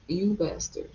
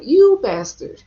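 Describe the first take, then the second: First: Said in the usual way. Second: Dramatic anime hero shout. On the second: Shown as a demonstration. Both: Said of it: "in my anime voice".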